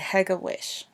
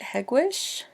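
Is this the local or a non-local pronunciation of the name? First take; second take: non-local; local. First: It is said the way outsiders say it. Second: It is said the way local residents say it. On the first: The speaker is not from the neighborhood. The speaker calls it wrong. "We can identify non-locals when they pronounce it anything but that, and especially if they say Hegewisch" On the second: The speaker is from the neighborhood. The speaker calls it right. "The locals pronounce it Hegewisch"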